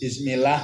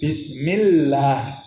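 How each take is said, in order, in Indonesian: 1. Bunyi L pendek dan tunggal. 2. Bunyi L ditahan lama dan ganda. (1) "ngoten ta mboten saged, mboten sah" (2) "kedah ditekan"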